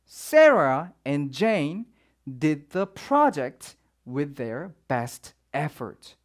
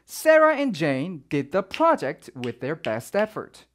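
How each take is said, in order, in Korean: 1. 문장을 천천히 그리고 신중하게 읽어요. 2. 문장을 자연스러운 속도로 읽어요. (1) "제가 조금 천천히 읽었나요?" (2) "요거를 자연스럽게 읽으면 이제 이렇게 돼요"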